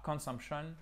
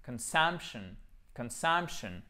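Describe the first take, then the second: First: "consumption" wrongly, French-style with full vowels and no punched syllable; mauvaise prononciation. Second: "consumption" with a weak schwa in con, sump stressed. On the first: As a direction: say "consumption" as a counterexample, unreduced vowels, little stress. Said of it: "c'est pas consumption". (« consumption » mal prononcé, voyelles pleines) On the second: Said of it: "il est prononcé comme un schwa". (« consumption » avec O atténué, accent sur sump) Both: Shown as a demonstration.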